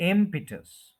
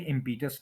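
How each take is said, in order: First: impetus as IM-pi-tus, high strong IM; impetus high on IM, falling away; stress on first syllable. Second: Said in the usual way. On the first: Shown as a demonstration. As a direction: hit the IM of impetus, short pi. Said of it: "IM पे stress है". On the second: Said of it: "ये impetus नहीं है".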